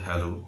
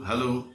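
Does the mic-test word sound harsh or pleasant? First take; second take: pleasant; harsh. First: The word is said softly and pleasantly. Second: The word is said carelessly and harshly. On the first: The speaker calls it right. "শ্রুতি মধুর করে বলতে হবে" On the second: The speaker calls it wrong. "এইসব আবার কি"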